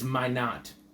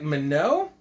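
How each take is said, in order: First: The name sounds like the words 'my knot'. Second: The name is read out as it is spelled. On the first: This is how the man says his own name. The speaker calls it right. "it's pronounced ... certainly by himself, is my knot" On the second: This is a guess from the written name. The speaker calls it wrong. "maybe you'd pronounce it if you're just trying to like uh, interpret things in your brain"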